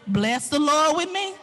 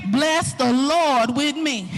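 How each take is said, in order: First: Said in the usual way. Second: "Bless the Lord with me" stretched slowly; slow, emphatic "Bless the Lord with me"; drawn-out exhortation. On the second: Retold or imitated. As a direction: hold "Lord" long, then let it fall. Repeats the call with emphasis.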